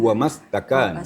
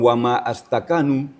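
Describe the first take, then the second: First: 'Ma' runs straight into 'stakanu' without a break. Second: A glottal stop separates 'ma' from 'astakanu'. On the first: The speaker calls it right. "tapi wa mastakanu" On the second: The speaker calls it wrong. "Bukan wa ma astakanu"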